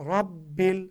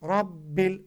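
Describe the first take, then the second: The two takes are said the same way.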